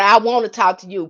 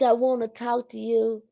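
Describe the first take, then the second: First: It sounds firm and sincere. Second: It sounds unsure and half-hearted. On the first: The speaker truly means the request. The speaker calls it right. "You said with meaning" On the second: The speaker is not sincere about the request. The speaker calls it wrong. "I'm not sure. Oh no, they gonna you ain't for real"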